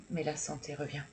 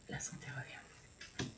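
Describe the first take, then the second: First: Said in the usual way. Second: Breathy whispered repeat, slow; soft slow whispered affirmation. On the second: Real, not acted. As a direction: whisper it back to yourself like a secret.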